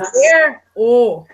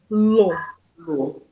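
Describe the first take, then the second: First: The final r is kept before a plain 'o'. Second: The r drops and the pronoun becomes 'lo'. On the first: The speaker calls it wrong. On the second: The speaker calls it right.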